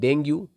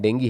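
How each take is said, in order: First: The word ends with an 'oo' vowel. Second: The word ends with an 'ee' vowel. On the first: The speaker calls it wrong. "डेंगू या डेंगी बोलते हैं इसे" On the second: The speaker calls it right. "सही pronunciation डेंगी है"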